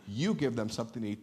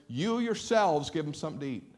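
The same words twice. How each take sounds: First: Said in the usual way. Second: "yourselves" punched and falling, the key word; emphatic yourselves. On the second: Shown as a demonstration. Preacher showing Jesus's emphatic command, stress on "yourselves". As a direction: lean hard on "yourselves". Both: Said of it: "It's in the emphatic".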